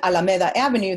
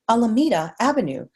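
First: Alameda is said with a Spanish pronunciation. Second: Alameda is said with an English pronunciation. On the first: This is how the word should properly be pronounced. The speaker calls it right. "instead of saying" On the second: This is how the client wanted it pronounced. The speaker calls it wrong. "they wanted me to say"

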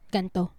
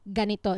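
First: The middle vowel is dropped, giving two syllables. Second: The middle vowel is kept, giving three syllables. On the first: This is the colloquial regional form of the word. "it's just ganto" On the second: This is the standard full form of the word. "the actual word is ganito"

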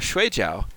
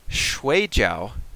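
First: It is said with the tones of 'sleep'. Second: It is said with the tones of 'dumpling'. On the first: It means to sleep. "that's where I want to go sleep" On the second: It means a type of dumpling. "shui jiao is a type of dumpling"

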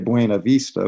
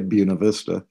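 First: Buena is said with a Spanish-style pronunciation. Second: Buena is said with an anglicized pronunciation. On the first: This is not how locals say the name. "we don't say Buena Vista" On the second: This is how locals say the name. "we say Buena Vista, despite so many Latinos living here"

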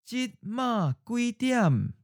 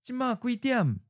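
First: It is said slowly and deliberately. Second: It is said at a natural, normal speed. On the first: "and then slowly" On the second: "First natural speed"

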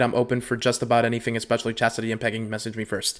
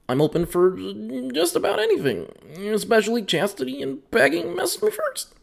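First: It is read in his normal voice. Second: It is read in a put-on voice.

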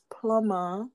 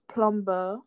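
First: The word is said the standard way. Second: The word is said the common Nigerian way. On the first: The speaker calls it right. "It's plumber" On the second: The speaker calls it wrong. "even my mom is very guilty of this, plumber. That's not how to say the word"

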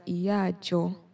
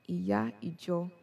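First: A vowel drops and the words run together. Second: Both words are said fully, vowels kept separate. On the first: "But you hear it as iya jo. ... they just slur the words together" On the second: "is iya ijo"

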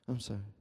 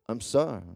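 First: It sounds grudging and forced. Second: It sounds earnest and sincere.

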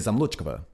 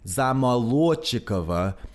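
First: The stress falls where English speakers place it. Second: The stress falls where Russian places it. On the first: The speaker calls it wrong. "but you say Zamolochkova" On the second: The speaker calls it right. "In Russian, there is a very clear emphasis on one syllable"

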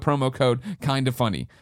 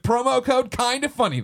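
First: It is read at a calm, normal volume. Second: It is read loudly and intensely, almost yelled.

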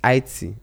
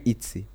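First: The name has no 'zee' sound at the end. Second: The name ends with a 'zee' sound. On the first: The speaker calls it right. "It's IT" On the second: The speaker calls it wrong. "people always mispronounce my name as Itzy"

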